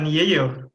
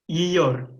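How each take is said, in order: First: The first vowel is an e sound. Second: The first vowel is an i sound. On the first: The speaker calls it wrong. "bukan yeyor" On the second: The speaker calls it right. "tapi yiyor"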